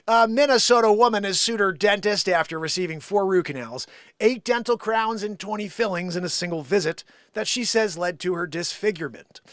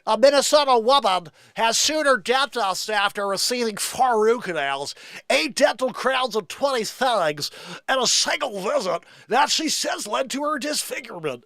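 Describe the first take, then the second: First: It is read in a normal voice. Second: It is read in a put-on radio voice.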